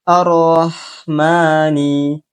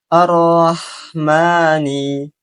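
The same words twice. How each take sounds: Both takes have the same delivery.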